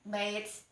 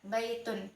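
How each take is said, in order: First: The word ends sharply on a 't' sound. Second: The word ends with an 'un' sound. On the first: The reader stops after this word. "kalau berhenti kan uh, bait itu tetap terbaca tak" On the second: The word is read joined to the next word. "Itu ketika disambung"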